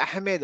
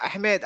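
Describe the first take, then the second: No difference in how they are said.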